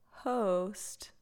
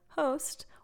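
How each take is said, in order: First: The 'ho' part is emphasized and drawn out. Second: The word is said plainly, nothing drawn out.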